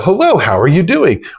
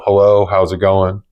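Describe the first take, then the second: First: The greeting sounds upbeat and excited. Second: The greeting sounds flat and unexcited.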